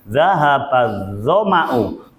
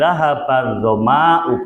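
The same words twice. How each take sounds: First: The vowel after the m is short. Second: The vowel after the m is long. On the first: The speaker calls it right. "Zoma itu mimnya pendek walaupun ada alifnya" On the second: The speaker calls it wrong.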